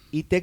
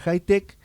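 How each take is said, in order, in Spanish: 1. El nombre empieza con un sonido 'ee'. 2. El nombre empieza con un sonido 'high'. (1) "no se pronuncia I-Tech" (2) "sino que se pronuncia Hightech"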